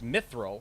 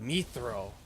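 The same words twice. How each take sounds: First: The last syllable has a short i vowel. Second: The last syllable has a long ee vowel. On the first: The speaker calls it right. "it's spelled and pronounced mithril" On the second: The speaker calls it wrong. "they call it mithril"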